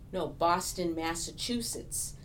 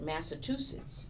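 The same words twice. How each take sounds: First: "Massachusetts" with a clear "choo" in the middle; emphatic correction, "Boston" punched louder; correcting pronunciation. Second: "Massachusetts" said as "Massa-TOO-setts"; mispronounced Massachusetts. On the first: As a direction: say "Massachusetts" properly, with "ch". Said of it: "I always found myself correcting people". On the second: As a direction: swap the "ch" in "Massachusetts" for a T. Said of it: "people had difficulty pronouncing Massachusetts". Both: Retold or imitated.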